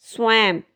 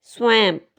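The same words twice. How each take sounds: The two takes are said the same way.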